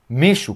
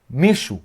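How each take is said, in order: First: It is said fast with the middle syllable dropped. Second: It is said fast with the middle syllable dropped.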